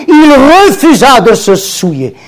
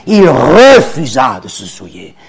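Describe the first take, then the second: First: "refusa" called out high and loud, falling; loud proclamation. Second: "Il refusa de se souiller" dropped much lower, weighed word by word; low, weighty repeat. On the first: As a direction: proclaim "il refusa de se souiller" to the room. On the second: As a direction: repeat it low to let it sink in. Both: Acted. Repeats line, loud then low.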